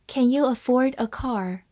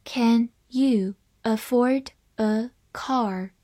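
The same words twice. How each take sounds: First: Said in the usual way. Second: Each word set apart, slowly; slow, deliberate model reading. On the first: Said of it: "慢慢来读". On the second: Shown as a demonstration. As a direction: spell out the question word by word at teaching pace. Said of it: "好，慢慢来读".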